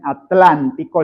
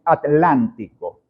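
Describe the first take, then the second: First: ATLÁNTICO with T and L run together, a-tlántico; blended TL. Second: ATLÁNTICO broken as at-lántico, softer; split T and L. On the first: Teacher showing the liquid group, a-tlántico with TL blended. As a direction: glide T into L in one syllable of Atlántico. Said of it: "no dicen Atlántico licuando". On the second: Teacher imitating Spain's at-lántico, T and L separated. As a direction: close the syllable on T, then start Atlántico's L. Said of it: "sino que dicen". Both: Shown as a demonstration.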